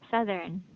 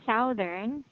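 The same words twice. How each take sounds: First: The first syllable has a short 'uh' vowel. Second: The first syllable rhymes with 'mouth'. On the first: The speaker calls it right. "this is pronounced as sa, southern" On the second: The speaker calls it wrong. "instead of saying southern"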